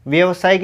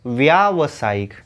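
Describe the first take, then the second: First: व्यवसायिक with short a, vyəvsayik; wrong form. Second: व्यावसायिक with long aa, vyaa, slowly; correct form, slow. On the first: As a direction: say व्यवसायिक as vyə. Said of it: "व्यवसायिक नहीं". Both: Shown as a demonstration.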